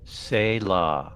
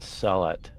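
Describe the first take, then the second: First: The word ends without a final t sound. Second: The word ends with a final t sound. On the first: The speaker calls it right. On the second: The speaker calls it wrong. "not sell it"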